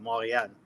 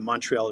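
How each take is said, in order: First: It is said with a French pronunciation. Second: It is said with an English pronunciation. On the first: "Montreal uh, in French is uh" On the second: "English way"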